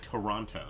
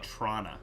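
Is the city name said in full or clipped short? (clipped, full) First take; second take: full; clipped. First: All three syllables are pronounced clearly. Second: The name is clipped to about two syllables. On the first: This is how outsiders say it. "they don't say Toronto" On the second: This is how the locals say it. "They just say"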